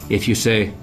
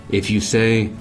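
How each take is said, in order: Both takes have the same delivery.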